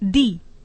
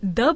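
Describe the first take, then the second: First: The word ends in a long 'ee' vowel. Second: The word ends in a short 'uh' vowel. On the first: "कई दी" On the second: "T H E को कई लोग द बोलते हैं"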